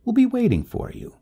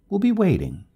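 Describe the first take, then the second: First: High, louder urgent promise. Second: High, louder call trailing up the stairs; calling from downstairs. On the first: Neighbor promises help before leaving, urgently. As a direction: urgently press the offer of help. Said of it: "turning and saying urgently". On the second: Neighbor going downstairs promises help, calling back. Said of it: "Her voice trailed up from the stairs". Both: A narrator's reading.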